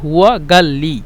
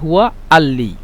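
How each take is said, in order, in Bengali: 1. ক্রিয়াটি একটি কঠিন g ধ্বনি দিয়ে শুরু হয়। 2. ক্রিয়াটি একটি গ্লটাল স্টপ দিয়ে শুরু হয়। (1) "আহলুস সুআইদ যারা সেটা বলে হুয়া গাল্লি" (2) "যারা কায়রোতে থাকে তারা বলে"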